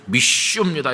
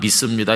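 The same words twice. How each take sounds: First: It is said with strong, forceful emphasis. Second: It is said plainly, without force.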